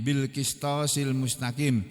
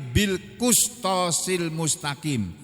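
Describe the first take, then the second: First: The vowel after the q sound is i. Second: The vowel after the q sound is u. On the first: This is the reading of some reciters. "dengan mengkasrah huruf qaf" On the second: This is the reading of the other reciters. "dengan mendomahnya"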